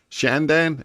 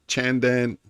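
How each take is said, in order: First: The name begins with an sh sound. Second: The name begins with a ch sound. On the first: "S H?" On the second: "C H"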